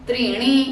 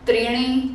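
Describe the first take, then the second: No difference in how they are said.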